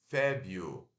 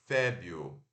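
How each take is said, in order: The two takes are said the same way.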